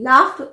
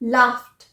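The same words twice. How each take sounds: First: The word ends with a d sound. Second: The word ends with a t sound. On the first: The speaker calls it wrong. "नहीं लाफ्ट हम बोल देते हैं पर ड नहीं है" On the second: The speaker calls it right. "पर ड नहीं है लाफ्ट"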